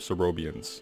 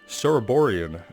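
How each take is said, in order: First: The name is said with one syllable missing. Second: The name is said with every syllable included. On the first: The speaker calls it wrong. "Been cutting out an entire syllable" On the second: The speaker calls it right. "I guess I should pronounce it correctly"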